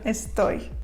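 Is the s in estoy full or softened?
Full. The s is pronounced fully and clearly.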